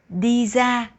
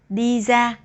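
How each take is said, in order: First: Ra begins with a z sound. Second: Ra begins with a z sound.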